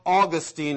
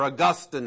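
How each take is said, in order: First: Put-on Augustine said AW-gus-teen; Augustine, first syllable stressed; alternate pronunciation. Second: Augustine said uh-GUS-tin; Augustine, short "tin" ending; alternate pronunciation. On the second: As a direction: say Augustine with stress on the middle syllable. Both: Shown as a demonstration. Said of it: "however you want to pronounce".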